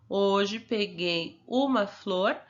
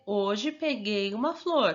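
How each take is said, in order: First: "Hoje peguei uma flor" read very slowly, word by word, rising on "uma"; slow dictation. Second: Said in the usual way. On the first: Shown as a demonstration. Teacher dictating "Hoje peguei uma flor" slowly for the pupil to copy. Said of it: "você vai escrever a mesma frase". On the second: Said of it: "É".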